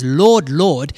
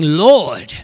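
First: Said in the usual way. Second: "Lord" as one drawn-out, exclaimed word; emphatic LORD. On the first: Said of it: "So when someone says". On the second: Shown as a demonstration. Preacher showing what a doubled word means, "Lord" said with heavy emphasis. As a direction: put all the weight on a single "Lord". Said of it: "it's more like they're saying".

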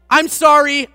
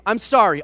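First: Loud apology. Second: Said in the usual way. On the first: Retold or imitated. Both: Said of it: "out loud".

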